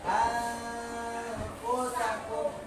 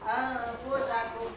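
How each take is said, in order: First: The nasal n sound is held for a while. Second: The nasal n sound is cut very short. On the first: The speaker calls it right. "dibaca dua dua harokat" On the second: The speaker calls it wrong. "jangan anfusakum. Memang dengung tapi sebentar"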